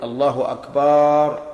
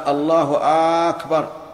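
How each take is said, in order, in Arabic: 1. تُمدّ الحركة بعد الباء في "Akbar". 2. تُمدّ الحركة الأولى في "Akbar". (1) "يمد الباء" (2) "ولا في الثاني"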